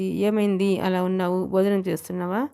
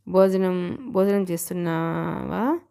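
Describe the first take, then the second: First: Casual. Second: Slow, probing "భోజనం చేస్తున్నావా?" with a rising end; dawning doubt, asking it again slowly; suspicious. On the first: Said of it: "క్యాజువల్గా అంటుండగానే". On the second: Wife suddenly suspects her husband has been skipping meals, slow and probing. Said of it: "ఏదో అనుమానం ఆమెలో ప్రవేశించింది". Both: A narrator's reading.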